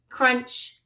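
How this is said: The word is said with an English pronunciation. "That's English"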